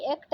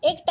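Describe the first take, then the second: First: Said in the usual way. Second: एक्ट with closed e; wrong vowel. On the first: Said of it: "एक्ट ऐसे लिखते हैं". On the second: Shown as a demonstration. Teacher showing how not to write, एक्ट with plain e. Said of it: "एक्ट ऐसे नहीं".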